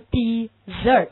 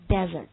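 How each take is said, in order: First: The stress is on the second syllable. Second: The stress is on the first syllable. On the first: It is the verb meaning to abandon. "重音落在第二音节" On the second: It is the noun meaning a sandy wasteland. "你看它重音落在第一音节"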